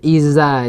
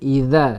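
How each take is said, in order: First: The middle consonant is a plain z sound. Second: The middle consonant is a voiced th sound. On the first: The speaker calls it wrong. "bukan iza aja" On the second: The speaker calls it right. "tapi idza"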